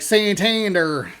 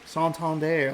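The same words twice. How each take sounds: First: The name is said with heavy American sounds. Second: The name flows smoothly with Spanish-style sounds. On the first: The speaker calls it wrong. "way to Americanize the fuck out of that" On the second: The speaker calls it right. "beautiful smoothness to like Santander. Like it, it flows very nicely"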